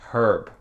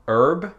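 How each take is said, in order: First: The word starts with an audible h sound. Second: The word starts with a vowel, no h sound.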